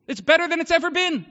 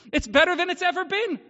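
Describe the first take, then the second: First: Louder, higher joyful proclamation; exultant. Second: Higher, louder ringing repeat; exultant again. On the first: Pastor telling his congregation life is glorious, exultant. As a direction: proclaim it with full joy. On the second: Pastor repeating to the congregation that life is better, exultant. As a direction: ring it out once more with joy. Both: Real, not acted.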